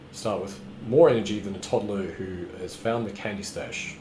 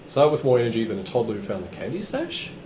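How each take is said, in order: First: The voice falls at the end. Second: The voice rises at the end.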